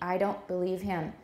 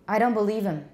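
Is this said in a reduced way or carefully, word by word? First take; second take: careful; reduced. First: The words are said fully and carefully, one by one. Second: The words are heavily reduced and run together.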